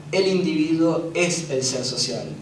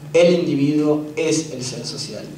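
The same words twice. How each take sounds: No difference in how they are said.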